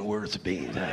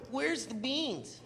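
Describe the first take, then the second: First: Much lower cowboy drawl; cowboy in the audience asking who said it. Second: Drawn-out, very slow mocking call; slow, softer taunt called out during the movie; slow sly heckle. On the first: Retold or imitated. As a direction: drop low like a gruff cowboy. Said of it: "some guy with a cowboy hat". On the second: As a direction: stretch it out slowly like a sneaky heckle. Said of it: "I would go".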